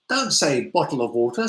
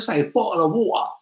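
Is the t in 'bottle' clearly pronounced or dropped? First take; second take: clear; dropped. First: The t in bottle is clearly pronounced. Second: The t in bottle is dropped. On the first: The speaker calls it right. "Use the nice way of speaking" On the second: The speaker calls it wrong. "losing the sound"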